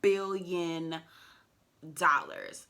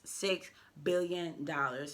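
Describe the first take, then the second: First: Billion punched out louder; stress on billion. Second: Said in the usual way. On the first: Shown as a demonstration. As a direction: hit the B of Billion hard. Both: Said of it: "Y'all heard me with the B, okay?".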